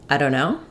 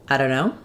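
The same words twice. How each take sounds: No difference in how they are said.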